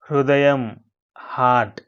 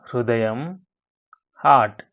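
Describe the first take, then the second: No difference in how they are said.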